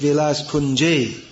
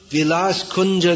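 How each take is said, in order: First: The second word ends in an 'e' vowel. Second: The second word ends in an 'a' vowel. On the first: It asks for a residence within Vilas Kunja. The speaker calls it right. "Should be Vilas Kunje" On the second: It addresses Vilas Kunja directly as a person. The speaker calls it wrong. "that means we stopped singing a song to Tulsi Devi"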